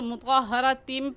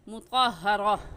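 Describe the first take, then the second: First: The word ends with an m sound. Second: The word ends in a long a vowel. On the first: The word is joined to what follows. "मिलाकर पढ़ेंगे तो मुतक़हरतिम पढ़ेंगे" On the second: The reader stops on this word. "वक़फ़ करेंगे तो मुतक़हरा"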